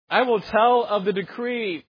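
It is said in a joyful, glad tone. The speaker is delighted to announce it. The speaker calls it right. "I imagine it like this: "I will tell of the decree with joy and gladness"

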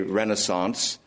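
It is said the common American way. "Most Americans say Renaissance"

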